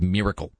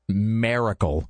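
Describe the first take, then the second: First: The word has the usual standard pronunciation. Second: The word has a rustic regional pronunciation. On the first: The speaker calls it right. "instead of miracle" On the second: The speaker calls it wrong. "I would say miracle instead of miracle, ... sound like a rube"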